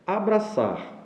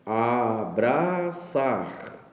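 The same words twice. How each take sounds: First: Said in the usual way. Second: Abraçar drawn out syllable by syllable, last syllable stressed; split into syllables. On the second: Shown as a demonstration. Teacher slowly splitting Abraçar into syllables for the class. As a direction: spell out a-bra-ÇAR slowly, landing on the end. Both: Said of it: "Novamente a tonicidade na última sílaba".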